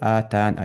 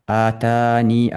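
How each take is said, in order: First: The word ends on the consonant 'n'. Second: The word ends with a long 'ee' vowel. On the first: "بحذفها" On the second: "بإثبات الياء"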